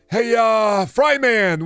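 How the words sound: It is said in a Daffy Duck voice. The speaker calls it wrong.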